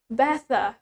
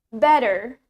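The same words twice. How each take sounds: First: The t is crisp and the final r is soft. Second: The t is softened toward a d sound. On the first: "In British" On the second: "In American"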